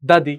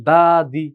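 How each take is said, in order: First: দাদি with both syllables short; quick, no drawl. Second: দাদি with both vowels stretched long; drawn out. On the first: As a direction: say দাদি quickly, without stretching the vowels. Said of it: "দ্রুত উচ্চারণটা করা যায়". (টান ছাড়া দ্রুত দাদি) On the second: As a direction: drag out দা and দি, the wrong way. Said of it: "টান না চলে আসে". (টেনে টেনে বলা দাদি) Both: Shown as a demonstration.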